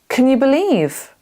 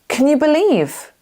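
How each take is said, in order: First: The word 'can' has a weak, reduced vowel. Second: The same.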